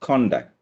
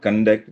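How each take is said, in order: First: The stress is on the first syllable. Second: The stress is on the second syllable. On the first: The speaker calls it right. "It's contact" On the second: The speaker calls it wrong. "It's not conduct"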